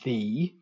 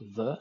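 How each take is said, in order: First: The vowel is a full, non-schwa vowel. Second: The vowel is a short, relaxed schwa. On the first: "as opposed to the" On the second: "at the end of the word the, when pronounced the"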